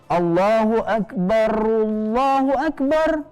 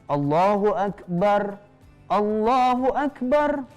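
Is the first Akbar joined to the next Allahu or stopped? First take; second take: joined; stopped. First: The first Akbar runs straight into the next word. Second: The first Akbar ends cut off before a break. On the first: "alifnya dihilangkan" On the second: "kalau misalnya kalian mau azan dengan diputus, di sini kan diputus nih"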